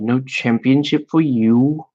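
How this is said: It is said in a put-on British accent. The speaker calls it wrong. "I have a terrible British accent"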